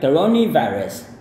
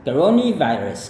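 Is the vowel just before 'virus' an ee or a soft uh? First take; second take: ee; ee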